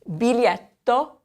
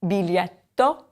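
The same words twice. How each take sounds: First: Bee-LYET-to, slowly; teacher modeling biglietto; model word. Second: Biglietto again; bee-LYET-to repeated; repeat for class. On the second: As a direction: repetition of biglietto. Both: Shown as a demonstration. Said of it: "teacher models the word".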